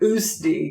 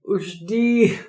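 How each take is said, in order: First: The middle consonant is a plain 's' sound. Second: The middle consonant is an 'sh' sound.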